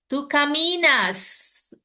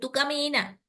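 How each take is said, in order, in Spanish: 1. Se pronuncia claramente la S final. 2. Se omite la S final. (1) "tiene que sonar la S" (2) "Yo no puedo decir tú camina"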